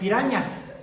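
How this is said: The middle consonant is a ny sound. This is the Spanish way of saying it. "no pueden decir pirañas"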